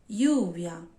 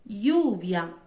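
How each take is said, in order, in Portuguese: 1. O ll soa como um som y. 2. O ll soa como um som y.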